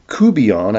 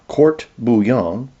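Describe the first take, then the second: First: It is said the Louisiana way, run together. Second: It is said the classical French way.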